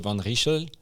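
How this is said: The name is said with a Flemish pronunciation. "Donc si tu es belge, flamand, tu peux le prononcer comme ça"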